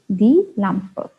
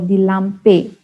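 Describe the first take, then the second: First: The final e is said as 'uh'. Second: The final e is not said as 'uh'. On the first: The speaker calls it right. "It is ... die Lampe" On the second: The speaker calls it wrong. "We do not say ... die Lampe"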